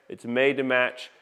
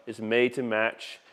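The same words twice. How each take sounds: The two takes are said the same way.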